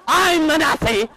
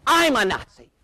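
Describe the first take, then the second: First: Full-blown high-pitched shriek; very loud comic screech; imitated screaming wife. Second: High, loud indignant cry; mock scream, pitched up; imitated screaming wife. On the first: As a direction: scream the insult back, hysterically. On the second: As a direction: echo the insult in outrage. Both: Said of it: "She's screaming now".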